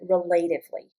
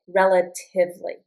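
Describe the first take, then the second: First: The stress falls on a later syllable. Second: The stress falls on the first syllable. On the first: The speaker calls it wrong. "Notice I don't pronounce it relatively" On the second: The speaker calls it right. "So the accent is on this I"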